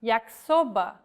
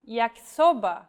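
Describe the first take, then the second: First: Yakisoba said the Portuguese way, Y as an I vowel; Yakisoba, Y sounded as a clear I; Portuguese pronunciation. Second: Yakisoba with a hard K sound; yakisoba, K said as in English; yakisoba, the K crisp and hard; Portuguese pronunciation. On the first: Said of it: "The letter Y is read like the vowel I". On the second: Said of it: "the letter K is read just like in English". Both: Shown as a demonstration.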